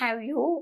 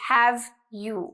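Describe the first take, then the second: First: The v sound in have is barely heard. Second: The v sound in have is clearly pronounced. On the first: The speaker calls it wrong. "so it's not have you" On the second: The speaker calls it right. "it's have you. you need to make sure you pronounce it clearly"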